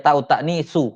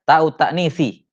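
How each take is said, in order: First: The second word ends with a 'u' vowel. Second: The second word ends with an 'i' vowel. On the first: The word is in the nominative case. The speaker calls it wrong. "bukan dibaca ta'u ta'nisu" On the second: The word is in the genitive case. The speaker calls it right. "Makanya selalu dibaca ta'u ta'nisi, majrur"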